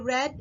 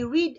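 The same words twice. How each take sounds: First: The vowel is short, like in 'bed'. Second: The vowel is long, like in 'seed'. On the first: The action happened in the past. "it becomes read when the action is already done in the past" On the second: The action happens now. "I read a book"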